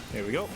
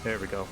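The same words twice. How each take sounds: The two takes are said the same way.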